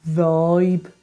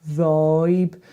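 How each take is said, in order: No difference in how they are said.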